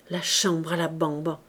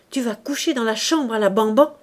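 First: Said in the usual way. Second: Louder, rising incredulous question; outraged cry. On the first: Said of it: "elle entendit bien l'exclamation de sa belle-sœur". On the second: A narrator's reading. Sister-in-law flings the nickname in outrage, crying out. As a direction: exclaim it loudly, climbing at the end. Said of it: "cria-t-elle".

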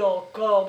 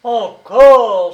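First: Said in the usual way. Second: Encore shouted loud and high; outraged cry. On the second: A narrator's reading. Prisoner protesting the name again, outraged shout. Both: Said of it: "s'écria-t-il".

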